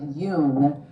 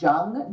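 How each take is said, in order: First: The name begins with a Y sound. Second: The name begins with a J sound. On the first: "people pronounce it Yoon" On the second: "it's spelled like like it would sound Jung"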